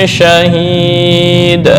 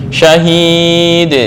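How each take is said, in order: No difference in how they are said.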